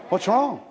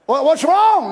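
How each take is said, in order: First: Said in the usual way. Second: Exasperated. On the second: Retold or imitated. Exasperated spouse asks again.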